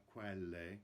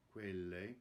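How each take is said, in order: First: "quelle" with an open E, like kwell-eh; wrong open E. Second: "quelle" with a closed E, like kway-leh. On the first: Coach showing the choir the wrong vowel in quelle, open E. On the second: Coach modelling the right vowel in quelle, closed E. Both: Shown as a demonstration. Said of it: "Notice the closed E in quelle".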